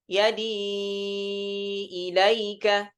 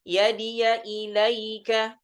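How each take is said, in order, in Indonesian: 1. Vokal setelah yadi dibaca panjang. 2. Setelah yadi ada suku kata 'ya' yang pendek. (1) "iskanul ya'i ma'al maddil munfasil ... dibaca empat harakat" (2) "kalau di riwayah Hafs dibacanya yadiya ilaika"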